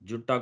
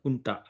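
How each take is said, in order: First: The word begins with a J sound. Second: The word begins with an H sound. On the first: The speaker calls it wrong. "జుంటా కూడా కాదు" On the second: The speaker calls it right. "హుంటా అంటారు"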